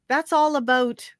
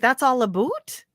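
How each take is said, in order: First: 'About' is said with a plain American vowel. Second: 'About' is said like 'aboot', Canadian style. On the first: "Americans say A B O U T" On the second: "you would say"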